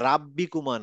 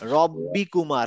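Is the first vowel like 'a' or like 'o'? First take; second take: a; o. First: The first vowel is an open 'a' sound. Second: The first vowel is a rounded 'o' sound. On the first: The speaker calls it wrong. "রাব্বিকুমা না" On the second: The speaker calls it right.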